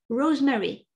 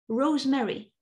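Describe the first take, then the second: No difference in how they are said.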